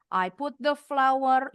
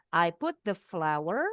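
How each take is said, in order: First: FLOUR run straight on, no comma rise. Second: "flour" rising, slow and unfinished; rising comma intonation. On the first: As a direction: say "I put the flour" with no brake after "flour". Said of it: "nggak ada remnya, nggak ada tanda bacanya". ("flour" tanpa jeda koma, langsung bablas) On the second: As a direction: slowly lift the end of "flour" for a comma. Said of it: "kalau pakai tanda koma tuh intonasinya naik". ("flour" naik di akhir, pelan, belum selesai) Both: Shown as a demonstration.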